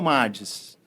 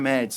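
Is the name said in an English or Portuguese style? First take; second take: Portuguese; English. First: The name is said in a Portuguese style. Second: The name is said in an English style. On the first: This is how the speaker says the name. "eu falo Mades" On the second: This is how other people say the name. "Se fosse uma palavra americana, seria Mads"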